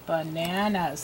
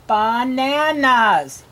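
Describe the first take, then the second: First: Said in the usual way. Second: "bananas" stretched as ba-na-nas; slow, evenly spaced "bananas", full first vowel; syllable by syllable. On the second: Shown as a demonstration. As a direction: give each syllable of "bananas" its full length. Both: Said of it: "Three syllables".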